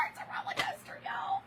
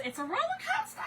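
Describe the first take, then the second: First: Breathless whisper through tears; It's a roller coaster whispered, voice breaking; teary whisper. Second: High, teary laugh through the words; half laughing, half crying; choked laugh-cry on roller coaster. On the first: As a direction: whisper it as the laugh-cry takes over. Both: Real, not acted. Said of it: "one minute I'm crying, one minute I'm laughing".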